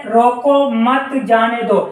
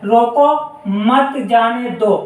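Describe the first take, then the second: First: "रोको मत जाने दो" read as one unbroken sentence; no comma pause. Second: Short comma pause after "रोको", then "मत जाने दो"; "रोको", brief stop, then "मत जाने दो" to a full stop. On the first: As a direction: read "रोको मत जाने दो" slowly, stopping only after "दो". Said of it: "ये वाला पूर्ण विराम है". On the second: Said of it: "ये अल्प विराम होता है". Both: Shown as a demonstration.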